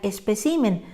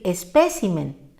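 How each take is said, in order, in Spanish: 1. El acento está en la tercera sílaba. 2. El acento está en la segunda sílaba. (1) "porque sin tilde diría" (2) "Lo correcto es decir y escribir"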